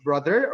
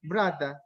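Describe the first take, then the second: First: Said in the usual way. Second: "brada" with a d for th and no final r; altered pronunciation. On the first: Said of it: "Is it just plainly pronounced as". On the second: Shown as a demonstration. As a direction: say brother as "brada", open final a. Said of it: "pronounced as brother or brada".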